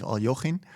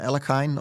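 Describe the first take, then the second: First: The name is said in a Russian way. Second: The name is said in an anglicized way.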